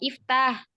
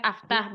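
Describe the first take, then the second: First: The first vowel is an i sound. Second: The first vowel is an a sound. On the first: The speaker calls it right. "Alifnya itu dibaca kasroh" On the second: The speaker calls it wrong. "Bukan aftah"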